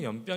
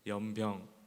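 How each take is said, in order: First: The word is said quickly, syllables run together. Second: The word is said slowly, syllables stretched long. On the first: The speaker calls it wrong. "그 자꾸만 그 연병 연병 이렇게 하는 거예요" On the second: The speaker calls it right. "조금 길게 한번 해봤거든요"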